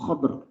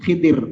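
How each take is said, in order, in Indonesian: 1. Ada a setelah kh, tidak ada vokal setelah d. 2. Ada i setelah kh, tidak ada vokal setelah d. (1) "atau sukun dotnya" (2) "kha-nya kasrah, dotnya sukun"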